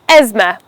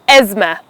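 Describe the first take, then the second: First: The th sound is left out. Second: The same.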